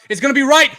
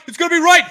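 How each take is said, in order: First: Yelling at the kick; loud excited yell; shouting. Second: Even higher, louder yell; louder shout. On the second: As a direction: scream it out. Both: Real, not acted. Field goal attempt, yelling.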